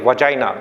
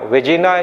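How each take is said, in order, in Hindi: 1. दूसरा अक्षर 'jai' जैसा सुनाई देता है। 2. दूसरा अक्षर 'jee' जैसा सुनाई देता है। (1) "इसका प्रोनाउंसिएशन होता है वजाइना" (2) "वेजिना या कुछ और नहीं बोलेंगे"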